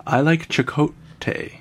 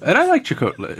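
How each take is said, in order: First: I like Chakotay said slowly, each syllable of Chakotay placed with care; slow down and get Chakotay right; careful slow retake. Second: Said in the usual way. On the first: Shown as a demonstration. Host retrying the name he stumbled on, slow and careful. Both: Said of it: "It's hard to say his name".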